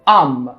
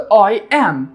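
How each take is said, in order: First: Merged into one short syllable, I'm. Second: Two separate words, I and am. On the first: "لما اختصرناهم مع بعض" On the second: "قلت I am"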